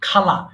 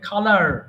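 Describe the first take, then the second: First: The final r sound is dropped. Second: The final r sound is clearly pronounced. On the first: "খালারকে আমরা বলি খালা" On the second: "আমেরিকানরা এটাকে আরটাকে আরো সুন্দর করে উচ্চারণ করে"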